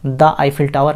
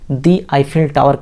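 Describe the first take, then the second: First: 'The' is said with a short 'uh' vowel. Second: 'The' is said with a long 'ee' vowel. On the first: The speaker calls it wrong. "नहीं कहा" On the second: The speaker calls it right. "हमने द Eiffel tower कहा"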